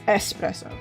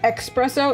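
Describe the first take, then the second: First: The word begins with an 'es' sound. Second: The word begins with an 'ex' sound. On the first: The speaker calls it right. "it's it's S S S" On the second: The speaker calls it wrong. "It's not espresso"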